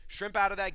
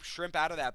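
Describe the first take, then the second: First: Louder and higher, urging; cageside yell. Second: Said in the usual way. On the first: Retold or imitated. Fan yelling advice at the fighter, loud.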